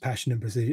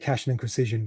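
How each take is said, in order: First: The P sounds are said plainly, without exaggeration. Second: The P sounds are strongly exaggerated and popped. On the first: The line is as written in the published book. "there it's just" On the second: The line has been performed aloud many times. "you can tell I perform this so much because I say"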